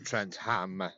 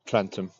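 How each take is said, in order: First: The second syllable is a full 'ham' with h. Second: The second syllable is a short reduced 'um'. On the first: This follows the spelling. "if you say it properly, obviously you could say Trent Ham" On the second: This is how locals usually say it. "we just say Trentum"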